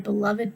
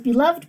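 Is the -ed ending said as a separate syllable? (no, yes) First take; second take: yes; no. First: The ending is an extra syllable. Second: The ending adds no extra syllable. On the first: It is used as an adjective. "He is my beloved dog. A little different" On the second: It is used as a verb. "He is beloved by his friends"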